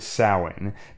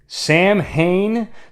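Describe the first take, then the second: First: The name is said in its traditional Gaelic form. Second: The name is said as English spelling suggests. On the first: The speaker calls it right. "The true pronunciation is closer to Samhain" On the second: The speaker calls it wrong. "the same mispronunciation that's featured in several of the Halloween movies"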